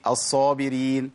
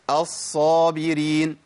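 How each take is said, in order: First: الصابرين with a short single ص; undoubled sad mistake. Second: الصابرين drawn out, the ص held double; doubled sad. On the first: Teacher imitating many people's mistake, sad left undoubled. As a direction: skim over the ص in الصابرين without holding it. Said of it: "فين الصادين؟". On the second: Teacher repeating the correct model, long doubled sad. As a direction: dwell on the doubled ص in الصابرين, slowly. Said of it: "الصاد مشددة اهي". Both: Shown as a demonstration.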